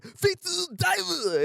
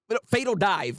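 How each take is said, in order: First: "Fatal Dive" pitched much higher and stretched very slow, each word drawn out; hammed-up hero shouting the attack name; anime attack call. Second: Said in the usual way. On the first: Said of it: "he said". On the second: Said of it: "that's what it's called".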